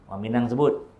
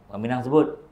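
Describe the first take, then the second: The two takes are said the same way.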